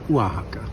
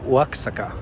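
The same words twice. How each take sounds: First: The middle consonant sounds like 'h'. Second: The middle consonant sounds like 'ks'. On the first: The speaker calls it right. "sort of like with an H" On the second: The speaker calls it wrong. "I said Oaxaca because you know that's what it says"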